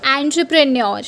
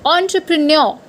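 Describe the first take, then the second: First: Entrepreneur starting with an; the mistaken entrepreneur; wrong way. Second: Entrepreneur starting with on; the correct entrepreneur. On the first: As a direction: say entrepreneur beginning an-truh. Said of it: "You could have said it". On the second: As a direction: say entrepreneur beginning on-truh. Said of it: "It's entrepreneur". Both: Shown as a demonstration.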